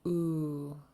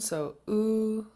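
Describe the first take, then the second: First: The long vowel is said on a low pitch. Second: The long vowel is said on a high pitch. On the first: "And then long and low" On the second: "This can also exist in high tone"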